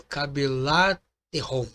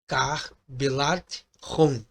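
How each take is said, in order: First: "cabelateron" read slowly, with no r closing the first syllable; leitura equivocada. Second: "Carbelateron" slowly in chunks, car, belat, ron; pronúncia silabada. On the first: Real, not acted. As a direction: say "cabelateron" opening on an open "ca". ("cabelateron" lido devagar, sem r na primeira sílaba) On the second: Shown as a demonstration. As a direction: close the first syllable of "Carbelateron" on r, pausing after it. ("Carbelateron" devagar, em blocos: car, belat, ron) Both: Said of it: "Não, aqui no caso seria".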